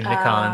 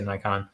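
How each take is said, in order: First: The word is said with a British pronunciation. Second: The word is said with an American pronunciation. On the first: This is how people overseas say it. "people across the pond say Nikon" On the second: This is how people locally say it. "people here say Nikon"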